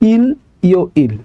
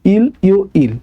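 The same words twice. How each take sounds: No difference in how they are said.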